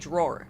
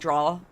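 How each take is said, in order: First: It is said without a Long Island accent. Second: It is said with a Long Island accent. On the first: "she couldn't say drawer" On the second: "She would say draw. Like she like draw"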